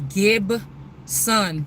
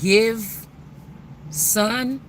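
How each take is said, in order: First: The middle consonant is a B sound. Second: The middle consonant is a V sound. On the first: "it can't pronounce the B. ... or the V" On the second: "instead of saying give son"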